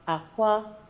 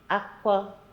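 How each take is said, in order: First: It is said with the tone pattern for eggs. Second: It is said with the tone pattern for cry. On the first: The word means eggs. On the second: The word means cry.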